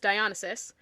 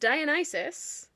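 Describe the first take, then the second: First: The name has an altered, nonstandard pronunciation. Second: The name has its usual standard pronunciation. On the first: The speaker calls it wrong. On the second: The speaker calls it right.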